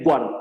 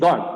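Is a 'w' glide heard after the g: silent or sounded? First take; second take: sounded; silent. First: A w glide is heard after the g. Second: No w glide is heard after the g. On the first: The speaker calls it wrong. "nunca es guard" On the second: The speaker calls it right. "nunca estoy pronunciando la U, eh, es guard"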